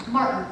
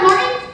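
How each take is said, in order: First: Martin said lower and softer with a falling tune; settled answer. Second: Martin said higher with a rising tune; questioning guess. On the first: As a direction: drop Martin flat as a rejected guess. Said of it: "Martin. (first take)". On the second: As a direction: try Martin as a hopeful question. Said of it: "Martin. (second take)". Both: Acted.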